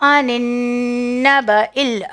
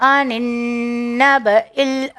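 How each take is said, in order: The two takes are said the same way.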